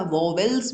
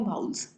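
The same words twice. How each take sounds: First: "वॉवेल्स" with a clear v in the middle; common mispronunciation. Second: "वाउल्स" with no v in the middle; correct pronunciation. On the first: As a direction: say "वॉवेल्स" in two syllables, vo-vel. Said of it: "actual में इसकी pronunciation है वाउल्स". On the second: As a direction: say "वाउल्स" as vowls, with an ow glide. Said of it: "इसकी pronunciation है वाउल्स". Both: Shown as a demonstration.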